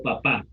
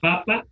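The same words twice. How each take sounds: First: Papá as paPÁ; weight on the final pá of papá; papá stressed on its ending; stress on last syllable. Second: Papa as PApa; weight on the first pa of papa; papa stressed up front; stress on first syllable. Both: Shown as a demonstration. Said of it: "mayor intensidad".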